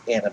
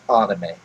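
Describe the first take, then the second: First: The first vowel is like 'a' in animation. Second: The first vowel is an open 'ah' sound. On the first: The speaker calls it right. "it's pronounced anime" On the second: The speaker calls it wrong. "It is not pronounced anime. ... It's not a h"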